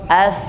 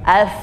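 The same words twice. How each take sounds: First: The final sound lets the breath keep flowing. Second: The same.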